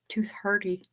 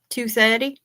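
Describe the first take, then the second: First: It is said in an exaggerated American accent. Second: It is said in a put-on Australian/New Zealand accent. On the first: "my my goofy American accent?" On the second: "my my fake Straya Kiwi accent?"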